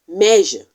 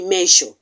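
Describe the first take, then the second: First: The middle consonant is a buzzing 'zh' sound. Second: The middle consonant is not a 'zh' sound. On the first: The speaker calls it right. "It is measure" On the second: The speaker calls it wrong. "it is wrong to say measure"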